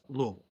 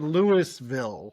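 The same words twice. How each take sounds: First: The word is slurred, as if mouth full of marbles. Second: The first part sounds like the name Louis. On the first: The speaker calls it right. "correct pronunciation is Louisville" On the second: The speaker calls it wrong. "A lot of people say Louisville because it's just dumb"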